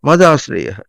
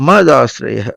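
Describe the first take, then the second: Both takes have the same delivery.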